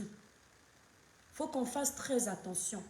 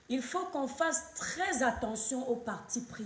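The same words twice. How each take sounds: First: "Il faut qu'on fasse très attention" said very slowly and softly, each word weighed; slow, soft warning. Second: Said in the usual way. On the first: Real, not acted. Streamer warning her Cameroonian viewers, slow and soft. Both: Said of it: "repeated warning slowed down".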